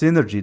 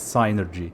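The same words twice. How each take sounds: First: The first syllable sounds like 'sin'. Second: The first syllable sounds like 'sigh'. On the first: The speaker calls it wrong. "if it was just synergy, then it sounds exactly like synergy without the P" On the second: The speaker calls it right. "I've pretty much settled on on being convinced that it's synergy"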